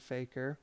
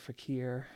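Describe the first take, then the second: First: It sounds like the English word faker. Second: It does not sound like the word faker. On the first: "came across this talisman from an Indian faker" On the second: "I think is the real pronunciation"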